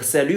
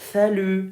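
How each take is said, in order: First: The s is an ordinary hissing sound. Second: The s is said with tongue between teeth.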